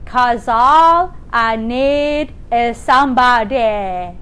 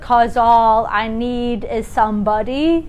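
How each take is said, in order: First: The vowels are opened toward an ah sound. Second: The vowels sound like ordinary speech. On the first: "You want to change that to" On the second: "this is kind of more like what you would do it if you were speaking"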